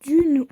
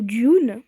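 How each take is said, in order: First: Said in the usual way. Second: "Dune" said the English way, as "dyoon"; English-style "Dune", a y-glide before a long oo; English pronunciation. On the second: Shown as a demonstration. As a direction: say "Dune" with an English "yoo" vowel. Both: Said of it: "je préfère prendre l'accent anglais".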